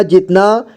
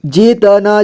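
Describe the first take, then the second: First: Said in the usual way. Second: जितना as जि-त-ना; syllable by syllable. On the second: Shown as a demonstration. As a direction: sound out जितना with "ta" on its own. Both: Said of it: "एक ही बार में पढ़ेंगे".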